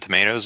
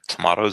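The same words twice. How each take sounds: First: Tomatoes is said with an American pronunciation. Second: Tomatoes is said with a British pronunciation.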